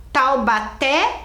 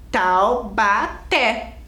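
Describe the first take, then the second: First: "Taubaté" slowly, leaning on the final "té"; stress on last syllable. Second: "Taubaté" very slowly as "Tau... ba... té"; syllable by syllable. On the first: Teacher recalling an example, "Taubaté" with stressed final "té". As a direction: let the last syllable of "Taubaté" rise and stand out. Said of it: "a última era forte". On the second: Teacher asking for the strong syllable, "Taubaté" split in three. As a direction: break "Taubaté" into three beats, ending on strong "té". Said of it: "Qual que é a sílaba mais forte?". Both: Shown as a demonstration.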